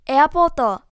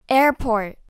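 First: The stress falls on the second part. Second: The stress falls on the first part. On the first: The speaker calls it wrong. "じゃないよね" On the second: The speaker calls it right. "全部前の方強く読むの？"

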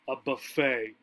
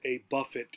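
First: The word is said the American English way. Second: The word is said the British English way. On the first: "In this time in American English" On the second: "British English would pronounce it a buffet"

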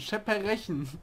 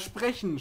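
First: Extra vowels break up the opening consonant cluster. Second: The opening consonant cluster is said without extra vowels.

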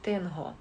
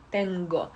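First: The middle consonant is a breathy fricative h. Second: The middle consonant is a hard stop g. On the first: The speaker calls it wrong. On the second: The speaker calls it right.

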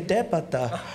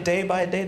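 First: The words run together into one slurred word. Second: Each word is said clearly and separately. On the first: "they say depata" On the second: "they don't say day by day"

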